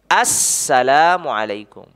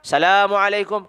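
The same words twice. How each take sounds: First: The phrase begins with the full 'as-' sound. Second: The phrase begins without the 'as-' sound. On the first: The speaker calls it right. "Harus ada alif lamnya" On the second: The speaker calls it wrong. "tidak sah kalau dia mengucapkan"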